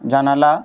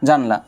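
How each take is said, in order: First: The word is said with three syllables. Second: The word is said with two syllables. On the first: "যেমন আমরা অনেকেই বলে থাকি যে জানালা" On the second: "এই জানালাকে আমরা আবার অনেকেই বলি যে জানলা"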